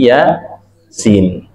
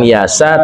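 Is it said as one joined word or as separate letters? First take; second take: separate letters; one word. First: It is said as separate letter names. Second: It is said as one joined word. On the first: The speaker calls it right. "tapi ya sin" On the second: The speaker calls it wrong. "bukan yasa"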